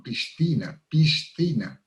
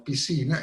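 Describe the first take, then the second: First: "piscina" with both s and th sounded; Madrid pronunciation. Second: "piscina" with one plain s sound; Latin American pronunciation. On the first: Showing how people in Madrid say it, s plus th. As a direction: mark the s, then a th, in "piscina". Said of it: "ellos lo llaman". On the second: Showing how we Venezuelans say it, single s. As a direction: say "piscina" as pisina, sc merged into s. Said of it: "lo que nosotros llamamos piscina". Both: Shown as a demonstration.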